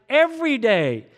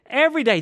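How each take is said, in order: First: Every day punched loud and high; Every day, stressed on every; emphatic repeat. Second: "Every day" again, louder and higher; Every stressed hard, falling at the end; louder emphatic repeat. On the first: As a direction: hit "Every day" hard and high, falling. Preacher hammering the point. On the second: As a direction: drive home "Every day" with more force. Preacher repeats the point louder. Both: Acted.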